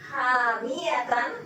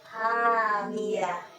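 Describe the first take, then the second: First: The word ends with a -tan sound. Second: The word ends with a soft -h sound. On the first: The word is read on without stopping. "Hamiyatan diganti" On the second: The word is read when stopping on it. "menjadi hasukun menjadi hamiyah"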